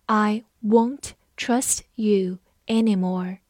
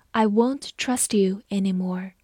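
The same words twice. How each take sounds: First: Slow word-by-word reading, pauses between words; 慢速示范朗读. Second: Said in the usual way. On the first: Shown as a demonstration. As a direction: read it slowly, one word at a time. (慢慢地逐词朗读) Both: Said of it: "我们慢慢来读".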